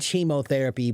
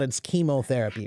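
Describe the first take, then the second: First: The word begins with a 'ch' sound. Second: The word begins with a 'k' sound. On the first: The speaker calls it wrong. "is spelled with a C H. So some people might think it, it should be" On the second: The speaker calls it right. "but it's not"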